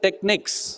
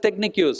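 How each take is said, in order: First: The word ends plainly with a 'neeks' sound. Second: The word ends with an added 'yoos' sound. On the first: The speaker calls it right. "You should say" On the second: The speaker calls it wrong. "Why do you pronounce it as"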